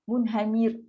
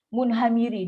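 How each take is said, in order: First: The word ends on a stopped consonant. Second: The word ends with a short final vowel. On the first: The speaker calls it right. "bunyi dia macam tu. Itulah bunyi dia" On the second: The speaker calls it wrong. "Jangan baca munhamiri"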